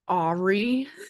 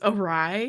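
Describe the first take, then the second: First: It is said like the name Aubrey, ending 'ee'. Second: It is said 'uh-rye', ending with an 'eye' sound. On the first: This is how it sounded when only read, never heard. The speaker calls it wrong. "I pronounced it wrong in my head" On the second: This is how the word is actually spoken. The speaker calls it right. "I didn't know it was awry"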